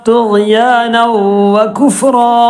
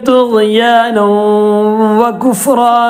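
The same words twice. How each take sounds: Both takes have the same delivery.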